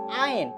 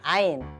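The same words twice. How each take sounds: First: The word is said with a nasal quality. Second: The word is said without nasal quality. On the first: The speaker calls it right. "Agak disengaukan, disengaukan, disengaukan" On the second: The speaker calls it wrong. "Bukan Ain"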